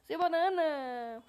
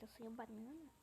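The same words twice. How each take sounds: First: Slow, much louder "Sou o Banana!"; proud shout. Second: Said in the usual way. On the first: Real, not acted. Gamer telling the other player who he is, slow proud shout. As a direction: announce your name to the whole server.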